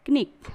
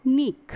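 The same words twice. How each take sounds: First: "क्निक" with K audible before N; ki-NIK for "क्निक"; K wrongly sounded. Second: "निक" starting on N, louder and higher; one emphatic syllable "निक", no opening K; silent K. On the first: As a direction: voice the first K in "क्निक". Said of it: "क्निक is wrong pronunciation". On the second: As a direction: drop the first K and punch "निक". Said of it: "हम क्या पढ़ेंगे". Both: Shown as a demonstration.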